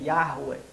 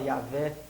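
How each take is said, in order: First: The middle consonant is pronounced as a u sound. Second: The middle consonant is pronounced as a v sound. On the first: "a pronúncia correta ali do W é, é U e não V" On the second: "a Bíblia de Jerusalém fala Yahvé"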